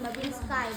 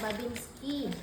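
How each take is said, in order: First: The last syllable sounds like English 'sky'. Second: The last syllable sounds like 'ski'. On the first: The speaker calls it wrong. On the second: The speaker calls it right.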